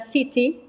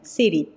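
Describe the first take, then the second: First: The t is a clear, crisp t sound. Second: The t is a quick flap, like d. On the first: "os britânicos vão usar city" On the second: "a forma bem norte-americana de pronunciar, ... o T como se fosse um R"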